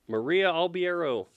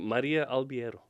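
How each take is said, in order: First: The name is said with an American English accent. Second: The name is said with a Brazilian Portuguese accent. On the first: This is how most English speakers say the name. "So are you okay if people are like" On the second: This is how the name is said natively. "as opposed to"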